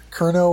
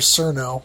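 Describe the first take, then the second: First: The name begins with a hard K sound. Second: The name begins with a soft S sound. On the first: The speaker calls it wrong. "all I can think of is the Kentucky Fried Chicken" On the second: The speaker calls it right. "Cerno sounds better"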